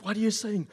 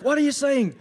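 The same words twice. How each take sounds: First: Raised-pitch, loud mafia henchman; hammed-up movie mobster question. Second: Very loud, high, urgent mafia henchman; hammed-up mobster yelling the question. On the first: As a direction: play a henchman straining to hear. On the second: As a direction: demand it frantically in a mock mobster voice. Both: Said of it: "I'm gonna do the mafia voice".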